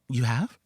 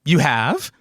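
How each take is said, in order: First: The voice sounds subdued and concerned. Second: The voice sounds eager and excited.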